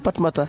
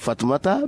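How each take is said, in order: First: The name begins with a P sound. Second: The name begins with an F sound.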